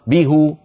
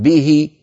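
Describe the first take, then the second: First: به said as bihu, the hā' with a short u; به with a rounded u on the hā', the heavy way; bihu with damma. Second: به said as bihi, the hā' with a short i; به with a light i on the hā', the easy way; bihi with kasra. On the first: Teacher to students, showing the heavy form: به as bihu. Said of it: "بدل ما يقولوا به". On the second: Teacher to students, showing the easier form: به as bihi. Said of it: "به أسهل". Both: Shown as a demonstration.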